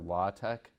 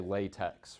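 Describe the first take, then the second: First: It is said ending in a 'k' sound, not 'ks'. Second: It is said like the rubber material, ending in 'ks'. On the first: The speaker calls it right. "It's pronounced either LaTeX or LaTeX" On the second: The speaker calls it wrong. "it looks like you would say latex, right? But that's not how it's pronounced"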